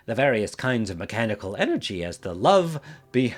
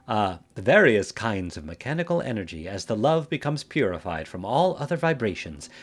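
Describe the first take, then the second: First: Cracking voice on purpose. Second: Said in the usual way. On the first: Acted. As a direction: let the voice crack and break. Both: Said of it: "doing the voice crack thing".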